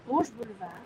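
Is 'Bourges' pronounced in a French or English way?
French. Bourges is given a French-style pronunciation. The speaker calls it wrong. "I said that Frenchy and Englishy"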